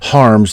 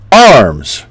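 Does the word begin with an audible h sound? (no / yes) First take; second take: yes; no. First: The word begins with an audible h sound. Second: The word begins directly with the vowel. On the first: It is the Air Force or honor guard way to project. "putting the H there before the A" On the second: It is the usual Army way. "Army necessarily uh, wouldn't necessarily use the H in there"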